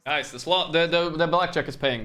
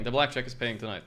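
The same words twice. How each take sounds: First: Excited. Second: Said in the usual way. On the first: Real, not acted. Excited win at blackjack table.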